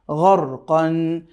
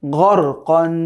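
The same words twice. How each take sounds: First: গর কন stretched very slowly, syllable by syllable; গর কন said slowly, each sound held; slow model reading. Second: Said in the usual way. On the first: Shown as a demonstration. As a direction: draw out গর কন for the learner to copy. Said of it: "ঠিক এভাবে করে আপনি". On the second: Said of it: "সব মিলিয়ে কি হলো?".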